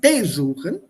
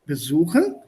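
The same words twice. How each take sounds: First: The stress is on the first syllable. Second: The stress is on the second syllable. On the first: The speaker calls it wrong. "not besuchen" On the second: The speaker calls it right. "stress is on the verb itself and not on the prefix"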